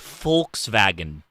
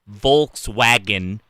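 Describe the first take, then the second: First: The middle consonant is a v sound. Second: The middle consonant is an English w sound. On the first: The speaker calls it right. "it's a W, and in Germany that's a V" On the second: The speaker calls it wrong. "it's not Volkswagen"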